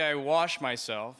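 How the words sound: It is said the New York way.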